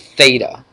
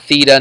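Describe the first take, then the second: First: The vowel sounds like 'ay'. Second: The vowel does not sound like 'ay'. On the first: The speaker calls it right. "It's theta. It sounds like an A" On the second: The speaker calls it wrong. "not theta"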